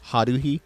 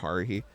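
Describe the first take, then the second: First: The name is said in a Japanese accent. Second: The name is said in an American accent.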